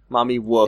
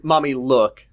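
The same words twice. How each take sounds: First: "wook" with a W in place of L; baby talk. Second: Said in the usual way. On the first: Shown as a demonstration. Co-reader echoing the little girl, "wook" with babyish W for L. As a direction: say "wook" like a toddler who can't say L.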